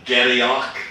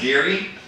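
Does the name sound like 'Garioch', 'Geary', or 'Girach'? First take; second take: Garioch; Geary. First: The name is said like 'Garioch', following spelling. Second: The name is said like 'Geary', short form. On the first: The speaker calls it wrong. "no one can spell uh, can pronounce it" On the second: The speaker calls it right. "but it's Geary"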